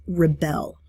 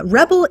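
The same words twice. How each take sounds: First: Rebel as re-BEL, slow, stress on the second syllable; verb rebel. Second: Rebel as REB-el, stress on the first syllable; noun rebel. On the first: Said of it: "the word is used as a verb, it becomes". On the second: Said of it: "rebel is a noun". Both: Shown as a demonstration.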